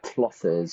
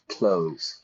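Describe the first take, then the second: First: It has a clear 'th' sound before the 's'. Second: It sounds like 'close', with no 'th' sound. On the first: "I don't say like clothes" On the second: "Same pronunciation"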